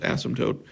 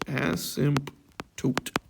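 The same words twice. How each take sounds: First: It is said with its usual spoken pronunciation. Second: It is sounded out closely following its spelling. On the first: The speaker calls it right. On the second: The speaker calls it wrong.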